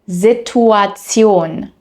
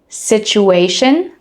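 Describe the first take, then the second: First: The ending is a literal 'tsion' sound. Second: The ending is a soft 'shun' sound. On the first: "the German pronunciation" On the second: "the English pronunciation"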